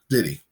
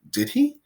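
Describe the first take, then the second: First: The pitch falls at the end. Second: The pitch rises at the end. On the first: The asker already believes Joe is guilty. "that's the one where the pitch goes down" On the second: The asker is genuinely questioning whether Joe did it. "the one with the pitch going up"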